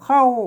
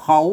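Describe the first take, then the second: First: The syllable is said with a falling tone. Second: The syllable is said with a rising tone. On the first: "เสียงโทพิเศษ" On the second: "อ่านได้เสียงจัตวา"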